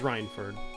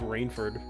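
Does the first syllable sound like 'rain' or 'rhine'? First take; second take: rhine; rain. First: The first syllable sounds like 'Rhine'. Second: The first syllable sounds like 'rain'. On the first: The speaker calls it right. "I guess it's a Rhine. It's Rhine time" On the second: The speaker calls it wrong. "I always thought it was, like, Rainford"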